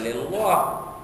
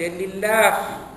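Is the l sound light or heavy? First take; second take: heavy; light. First: The l sound is thick and heavy. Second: The l sound is thin and light. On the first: The speaker calls it wrong. "Bukan lillah" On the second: The speaker calls it right. "Kena baca lillah. Dinipiskan"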